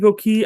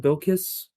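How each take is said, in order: First: The name ends with a 'key' sound. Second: The name ends with a 'kiss' sound. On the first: The speaker calls it right. "it could be Bill Key" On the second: The speaker calls it wrong. "I was calling her Bill Kiss"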